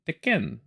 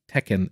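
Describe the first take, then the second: First: The name is said with a French Canadian accent. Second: The name is said with an ordinary English accent.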